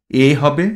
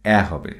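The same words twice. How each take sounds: First: এ pronounced with a pure e vowel; closed e sound. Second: এ opened to æ, the tadbhava way; open æ sound. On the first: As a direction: say এ as a closed "e", as in Sanskrit. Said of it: "মূল সংস্কৃত অনুসারে". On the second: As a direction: say এ as an open "æ", like a in cat. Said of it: "এবং তদ্ভব উচ্চারণে". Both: Shown as a demonstration.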